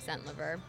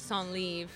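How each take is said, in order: First: The name is said with an Americanized pronunciation. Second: The name is said with a French pronunciation. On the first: This is the assimilated pronunciation used today. "over years of assimilation, it's become Centlivre" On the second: This is the family's original pronunciation. "originally Centlivre was how it was pronounced"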